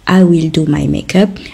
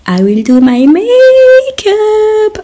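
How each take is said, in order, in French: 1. C'est dit d'une voix normale, neutre. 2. C'est dit d'une voix perçante, aiguë. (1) "au lieu de dire tout simplement" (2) "elles vont vous dire"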